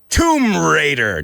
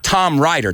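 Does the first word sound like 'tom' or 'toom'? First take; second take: toom; tom. First: The first word sounds like toom. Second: The first word sounds like tom. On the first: The speaker calls it right. "say it right" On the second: The speaker calls it wrong. "not Tom Rider"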